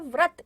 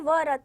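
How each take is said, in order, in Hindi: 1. व और र की ध्वनियाँ बिना किसी स्वर के जुड़ जाती हैं। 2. व और र की ध्वनियों के बीच एक पूरा स्वर आता है। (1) "यहाँ र का जो आपकी ध्वनि है वो जल्दी आएगी" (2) "व र त नहीं पढ़ेंगे"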